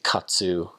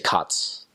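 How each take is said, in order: First: The word ends with a full, strong final vowel. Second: The word ends without a final vowel. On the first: This is how Americans say it. "Americans say katsu kind of strongly" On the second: This is how locals there say it. "We would just say kats"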